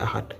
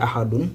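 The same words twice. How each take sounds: First: Ahad ending on d, said softer; stopped ending. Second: Ahadun with -un pronounced, tune going up; full -un ending. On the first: Teacher correcting to the pausal form, ending stopped on d. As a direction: close the word on the d of ahad. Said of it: "on va dire ahad". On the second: Teacher contrasting what not to say, full -un ending. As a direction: sound the whole ending of ahadun. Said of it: "au lieu de dire ahadun". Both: Shown as a demonstration.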